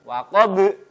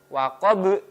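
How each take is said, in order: Both takes have the same delivery.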